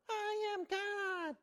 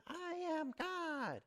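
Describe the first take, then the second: First: Very high, stretched-out mock yell; Shirley MacLaine. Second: Drawn-out, high mock yell without much volume; Shirley MacLaine. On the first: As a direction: imitate a bigger, higher yell to the ocean. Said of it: "a little louder". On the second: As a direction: imitate a half-hearted yell to the ocean. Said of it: "And she yells to the ocean".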